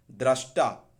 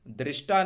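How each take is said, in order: First: दृष्टा said as drashta, louder; correct dra syllable. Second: दृष्टा said as drishta; wrong dri syllable. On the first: Teacher correcting students, दृष्टा as drashta. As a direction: punch दृष्टा with dra, not dri. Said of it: "द्रि नहीं". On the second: Teacher rejecting a form, दृष्टा as drishta. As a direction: say दृष्टा with an i after dr. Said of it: "दृष्टा नहीं". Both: Shown as a demonstration.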